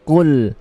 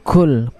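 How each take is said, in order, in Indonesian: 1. Konsonan pertama adalah q yang tebal dan tidak berdesah. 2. Konsonan pertama adalah k yang ringan dan berdesah. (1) "tapi qul, bersifat lebih tebal dan tidak ada hamas ataupun angin" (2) "bukan kul"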